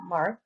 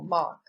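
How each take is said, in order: First: The R sound is pronounced. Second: The R sound is dropped. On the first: "that pronounces R, that means rhotic" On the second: "non-rhotic accents do not pronounce the R"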